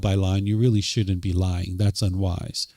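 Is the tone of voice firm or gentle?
gentle. The voice is soft and gentle. "instead of"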